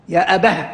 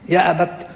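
First: The word ends with an h sound. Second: The word ends with a t sound. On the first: "يقفان عليها بالهاء" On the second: "بقية القراء يقفون عليها بالتاء"

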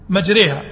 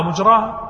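First: The long vowel after r leans toward e. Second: The long vowel after r is a plain open a. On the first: The speaker calls it right. "لا بد يقول إيش؟ مجريها" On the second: The speaker calls it wrong. "ما يستطيع"

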